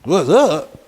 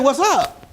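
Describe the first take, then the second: First: Lower, loud, casual street greeting; laid-back what's up. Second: Said in the usual way. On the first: Retold or imitated. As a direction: toss off a cool greeting. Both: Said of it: "I'm like".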